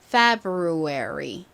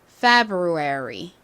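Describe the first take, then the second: The two takes are said the same way.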